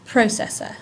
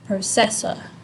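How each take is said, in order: First: The stress is on the first syllable. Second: The stress is on a later syllable. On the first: The speaker calls it right. "The emphasis is at the beginning of processor" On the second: The speaker calls it wrong. "It's not processor, right? The emphasis is not here"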